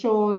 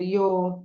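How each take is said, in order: First: It is said with an Argentine accent. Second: It is said with a Spanish accent. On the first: "na Argentina eles vão dizer yo" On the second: "na Espanha eles vão dizer yo"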